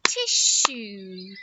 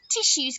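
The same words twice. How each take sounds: First: "Tissue" in two drawn-out beats, tiss-ue; clapped-out syllables. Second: Said in the usual way. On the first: Shown as a demonstration. Teacher clapping out syllables, "Tissue" split in two. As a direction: stretch both halves of "Tissue", lower on the second. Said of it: "Can we clap out tissues?".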